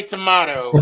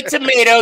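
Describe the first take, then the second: First: "tomato" with an AH in the middle; British-style tomato. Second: "tomato" with an AY in the middle; American tomato. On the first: Joking back at the correction, "tomato" said tuh-MAH-toe. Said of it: "you say tomato". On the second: Joking back at the correction, "tomato" said tuh-MAY-toe. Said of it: "I say tomato, you say tomato". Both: Shown as a demonstration.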